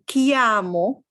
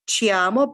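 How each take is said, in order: First: It begins with a hard 'k' sound. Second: It begins with a soft 'ch' sound. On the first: The speaker calls it right. "this is the way to make the C hard" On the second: The speaker calls it wrong. "people who know Spanish may be tempted to say chiamo"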